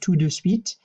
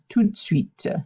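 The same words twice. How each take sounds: First: Each of the three words is pronounced separately. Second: The first two words merge into one syllable. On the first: The speaker calls it wrong. "You never actually pronounce it tout de suite" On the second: The speaker calls it right. "The tout and the de kind of smush together and it just becomes"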